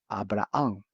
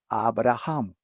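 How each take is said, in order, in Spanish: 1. La h del medio es muda, sin aspiración. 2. La h del medio se pronuncia con un sonido aspirado. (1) "En español la H es muda" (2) "en inglés es la H J"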